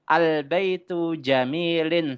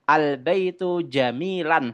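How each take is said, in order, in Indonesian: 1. Kata terakhir berakhir dengan bunyi -in. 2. Kata terakhir berakhir dengan bunyi -an. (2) "salah kalau teman-teman membacanya al-baitu jamilan"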